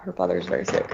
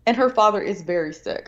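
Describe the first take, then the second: First: Repeated much lower and softer for weight; lower, quieter repeat. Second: Said in the usual way. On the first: Shown as a demonstration. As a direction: say it again low, letting it sink in. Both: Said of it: "I will say that".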